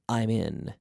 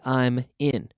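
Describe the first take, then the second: First: The m links smoothly into the next vowel. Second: The two words are said with a break. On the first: The speaker calls it right. "Every native speaker would say" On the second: The speaker calls it wrong. "No one would say"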